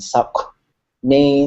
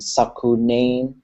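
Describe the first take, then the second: First: The middle consonants run together without a vowel. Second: A vowel sound separates the middle consonants. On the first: The speaker calls it right. "we're saying Saknain, and they're just running together" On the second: The speaker calls it wrong. "we're not saying"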